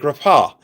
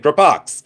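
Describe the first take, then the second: First: The word ends in a vowel, with no x. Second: The word ends with an audible x sound. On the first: This is how the French say it. The speaker calls it right. "If you're from France, you say Grappa. That's the way you say it" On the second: This is how the spelling suggests it is said. The speaker calls it wrong. "if you're from a cornfield in Ohio, you say Grappox"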